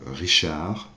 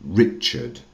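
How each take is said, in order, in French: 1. Il a un R guttural français. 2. Il a un R anglais, sans vibration. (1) "prenons euh, Richard" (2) "en anglais devient Richard"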